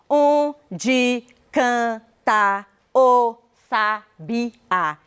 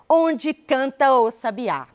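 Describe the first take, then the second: First: The vowels across words are kept separate. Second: The vowels across words merge into one syllable. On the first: The speaker calls it wrong. "E eu não falo" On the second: The speaker calls it right. "Eu falo"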